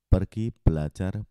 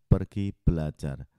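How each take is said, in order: Both takes have the same delivery.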